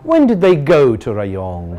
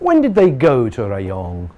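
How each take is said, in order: No difference in how they are said.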